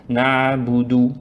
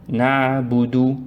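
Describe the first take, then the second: No difference in how they are said.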